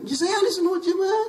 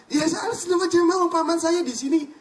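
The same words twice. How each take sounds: First: High and louder, the claim repeated through a laugh and whine; laughing protest. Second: High and louder, the Kiai protesting he is orthodox; a Kiai bristling at the suggestion, pitched up; indignant insistence. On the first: Kiai repeats his claim to the preacher, laughing and whining. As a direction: say it again, almost laughing, almost whining. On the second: Kiai answers the preacher's doubt with high, loud indignation. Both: Retold or imitated.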